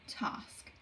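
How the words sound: The vowel is long, like 'tarsk'. The speaker calls it wrong. "Even though it's not got an R sound in it, we might say task"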